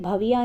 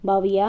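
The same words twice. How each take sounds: First: The first consonant is said with aspiration. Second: The first consonant is said without aspiration. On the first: The speaker calls it right. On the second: The speaker calls it wrong.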